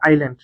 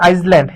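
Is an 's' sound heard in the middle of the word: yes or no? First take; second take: no; yes. First: No s sound is pronounced before the l. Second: An s sound is pronounced before the l. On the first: The speaker calls it right. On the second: The speaker calls it wrong.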